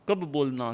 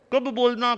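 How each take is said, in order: First: Said in the usual way. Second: कब hit high and loud; emphatic कब. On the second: Shown as a demonstration. Teacher stresses when to speak, with a loud high कब. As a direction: punch the word कब hard.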